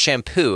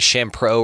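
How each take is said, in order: First: The name is said without an R sound. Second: The name is said with an added R sound. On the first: The speaker calls it right. "but it's pronounced shampoo" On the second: The speaker calls it wrong. "I pronounced it Shampro or something like that. I got added an R that wasn't even supposed to be in there"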